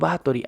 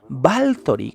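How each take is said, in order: First: No L sound comes before the T. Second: An L sound comes before the T. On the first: "la pronunciación más tradicional" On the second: "la pronunciación correcta de este nombre de los Balcanes es Baltori con una L"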